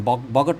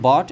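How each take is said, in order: First: A g sound is pronounced before the t. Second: No g sound is pronounced before the t. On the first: The speaker calls it wrong. "बॉगट नहीं बोलेंगे" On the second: The speaker calls it right. "बिल्कुल बॉट and नॉट"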